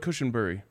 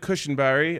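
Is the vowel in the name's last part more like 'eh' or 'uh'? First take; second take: uh; eh. First: The last part has an 'uh' vowel. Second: The last part has an 'eh' vowel. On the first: The speaker calls it right. "It's more of a U" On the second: The speaker calls it wrong. "I actually think I was saying that wrong"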